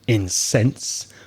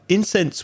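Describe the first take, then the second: First: The stress is on the second syllable. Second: The stress is on the first syllable. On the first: It means to make somebody angry. "when you change the stress, becomes a verb" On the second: It names a substance burned for its smell. "incense is something that produces a very pleasant smell"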